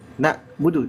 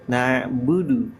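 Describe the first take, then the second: First: The first syllable ends with a k-like stop. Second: The first syllable ends with a slight throaty ain. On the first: The speaker calls it wrong. "jangan nak" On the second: The speaker calls it right. "ada suara ain ada suara e e e e gitu sedikit aja"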